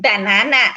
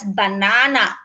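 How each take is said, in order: First: It is said with an American accent. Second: It is said with an Australian accent.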